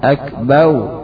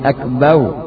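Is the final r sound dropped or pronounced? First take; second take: dropped; dropped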